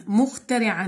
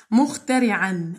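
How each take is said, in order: First: Said in the usual way. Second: Stretched out syllable by syllable; slow teacher demo of مخترعا. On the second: Shown as a demonstration. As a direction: say each syllable slowly for pupils.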